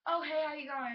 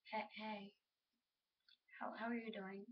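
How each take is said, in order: First: Said in the usual way. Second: Soft, halting, tongue-tied greeting; acted shyness, stumbling quietly over the words; shy, speechless. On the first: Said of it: "they just don't know what to say". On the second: Girl speechless that you're talking to her, shy. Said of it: "they're, like, speechless that you're talking".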